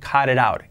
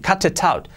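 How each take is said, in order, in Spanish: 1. Los sonidos de la t son suaves, como una r rápida. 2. Cada t se pronuncia completa y nítidamente. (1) "Las T's, como R suave debido a la influencia de la vocal siguiente" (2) "sonaría extraño incluso pronunciando todas las T's así"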